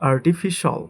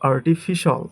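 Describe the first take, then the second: No difference in how they are said.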